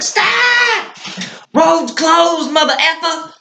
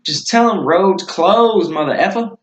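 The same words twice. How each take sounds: First: Very high-pitched mimicked holler; put-on high voice, hollering a halt; imitated traffic-stopping yell. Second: Higher, drawn-out casual instruction; offhand retold order. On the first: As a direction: call out a high, comic road warning. Imitates Talon stopping the cousin. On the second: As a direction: toss off the instruction with a slow, raised pitch. Retells own offhand instruction to Talon.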